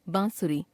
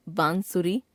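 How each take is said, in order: First: Said in the usual way. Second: बांसुरी with full n, "baan-suri", rising; wrong pronunciation. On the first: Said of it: "शुद्ध". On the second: Shown as a demonstration. Teacher showing a common error, बांसुरी with full n. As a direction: sound अनुस्वार as n in बांसुरी. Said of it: "अशुद्ध".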